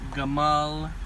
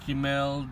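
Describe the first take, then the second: First: The first vowel is an 'a' sound. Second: The first vowel is an 'i' sound. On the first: This is the ancient pronunciation. "it was like" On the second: This is the modern taught pronunciation. "the way that it's taught these days"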